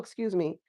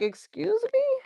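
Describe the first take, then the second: First: It sounds polite and apologetic. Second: It sounds shocked and indignant. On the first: The speaker apologizes for bumping into someone. "you bumping into somebody and being like, oh" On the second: The listener objects to what someone said. "they could have said some like off the wall type shit, and you like"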